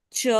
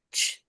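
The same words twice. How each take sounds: First: "ch" voiced as "cho"; ch with a vowel. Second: "ch" as a voiceless burst, no vowel; soft, pure "ch"; softer ch sound. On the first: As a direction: draw "ch" out into a full syllable. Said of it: "C H sound is". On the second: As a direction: let "ch" out without voicing. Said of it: "so a softer sound". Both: Shown as a demonstration.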